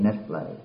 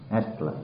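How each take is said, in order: First: Said in the usual way. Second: Soft breathy chuckle on "That's play"; laughing aside. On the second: Shown as a demonstration. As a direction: laugh it off under your breath.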